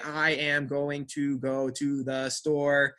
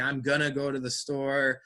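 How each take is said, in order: First: Every word is said fully and stiffly. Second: The words run together, reduced to gonna. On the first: The speaker calls it wrong. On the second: The speaker calls it right.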